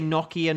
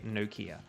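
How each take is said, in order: First: It is said with a British pronunciation. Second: It is said with an American pronunciation. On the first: "I do say Nokia ... because I'm English" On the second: "Americans say Nokia"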